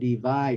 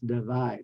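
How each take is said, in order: First: The first vowel is a full, clear vowel. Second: The first vowel is a reduced uh sound. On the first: The speaker calls it wrong. "Instead of divide" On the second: The speaker calls it right. "it's divide"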